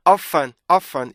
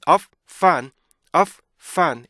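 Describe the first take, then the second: First: OF FUN quick, as a single word; wrongly merged. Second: OF, tiny gap, FUN; two separate sounds. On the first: Teacher showing the mistake, OF FUN with no gap. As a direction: run OF straight into FUN. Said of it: "이렇게 발음하는 거 아니란 말이에요". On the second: Teacher modelling for students, OF and FUN split apart. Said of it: "이렇게 발음해야 되는 거지". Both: Shown as a demonstration.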